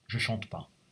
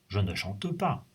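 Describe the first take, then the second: First: The word 'ne' is left out entirely. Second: The word 'ne' is clearly pronounced. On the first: It is everyday spoken French. "On ne prononce pas le ne dans la langue parlée" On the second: It sounds formal and a bit old-fashioned. "c'est trop soutenu"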